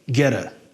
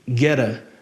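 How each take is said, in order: First: The words are joined with a quick flapped t. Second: The same.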